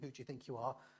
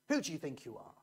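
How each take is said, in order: First: It is asked in a friendly tone. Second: It is asked in a challenging tone.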